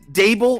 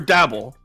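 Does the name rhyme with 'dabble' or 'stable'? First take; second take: stable; dabble. First: The vowel is a long 'ay', like stable. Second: The vowel is a short 'a', like dabble. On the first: "Is it Dable" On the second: "or Dabble?"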